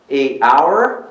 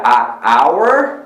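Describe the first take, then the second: First: "a" in "a hour" said as "ay"; "a hour" with the article like the letter name A. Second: "a" in "a hour" said as an open "ah"; slow "a hour", the article a separate "ah". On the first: Shows other reading of the article. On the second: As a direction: say "a hour" with "a" as in "father". Shows one reading of the article. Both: Shown as a demonstration.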